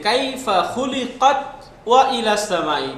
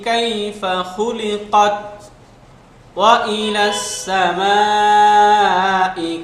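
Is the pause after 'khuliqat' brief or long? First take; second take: brief; long. First: The phrase runs together with only a brief stop. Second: There is a longer pause after 'khuliqat'. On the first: The speaker calls it wrong. "এইভাবে একসাথে বলে যাই তাহলে সাক্তার মতো হয়ে যায়" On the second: The speaker calls it right. "এখানে একটু বেশি থামবো, আমরা এইভাবে বলবো"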